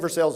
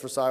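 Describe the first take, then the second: First: It is said the local Kentucky way. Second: It is said the French way. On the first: It names the town in Kentucky. "I say Versailles here" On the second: It names the palace in France. "it's Versailles over there"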